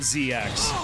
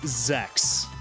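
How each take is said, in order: First: The name is said as two separate letters. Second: The name is said as one single syllable. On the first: "I was always calling it Z X" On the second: "that's just the proper Japanese pronunciation"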